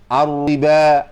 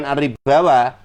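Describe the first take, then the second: First: The word ends on the 'ba' syllable. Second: The word ends with an extra 'wa' syllable. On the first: The speaker calls it right. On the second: The speaker calls it wrong. "bacanya bukan ar-ribawa"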